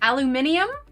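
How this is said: It has five syllables, ending in -nium. "in the U K it's pronounced"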